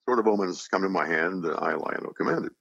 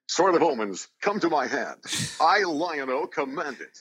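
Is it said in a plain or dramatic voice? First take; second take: plain; dramatic. First: It is said in a plain conversational voice. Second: It is said in a dramatic cartoon-hero voice.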